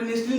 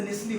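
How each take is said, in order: First: नेस्टली with the t sounded, "nest-lee"; wrong pronunciation. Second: नेस्ली with silent t, "NES-lee"; correct pronunciation. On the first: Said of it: "समझ में नेस्टली नहीं होता". (नेस्टली में "ट" बोलते हुए) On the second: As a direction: drop the t in नेस्ली. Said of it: "नेस्ली होता है". (नेस्ली में "ट" के बिना) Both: Shown as a demonstration.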